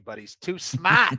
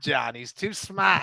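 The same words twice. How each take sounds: First: "smart" as Boston "smaht", no r; light Boston drawl on "smart"; Boston accent. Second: "smart" said "smaht", r dropped Boston style; a touch of Boston on "smart"; Boston accent. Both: Acted. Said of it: "I said smart".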